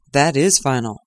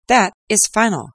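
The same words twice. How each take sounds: First: Gloomy echo. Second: Higher, louder, decisive; final verdict. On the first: Watson echoing Lestrade, lightly voiced resignation. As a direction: echo it with a sinking heart. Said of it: "I voluntarily echoed". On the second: Lestrade closing the case, emphatic mild triumph. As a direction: slam it down as Lestrade. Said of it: "said Lestrade". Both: Acted.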